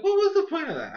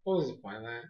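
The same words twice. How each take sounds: First: High, quick laughing disbelief; incredulous. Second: Low, soft and unimpressed; underplay it, almost to yourself; deadpan bafflement. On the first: Reviewer reacting to a pointless villain scheme, incredulous. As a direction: repeat it in a squeaky baffled rush. Retelling own baffled reaction, repeated heightened. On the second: Reviewer reacting to a pointless villain scheme, quietly baffled. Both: Retold or imitated.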